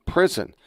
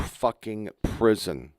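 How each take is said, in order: First: Prison hit higher, then falling; stress on Prison. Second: Said in the usual way. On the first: Shown as a demonstration. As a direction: repeat Prison higher for emphasis.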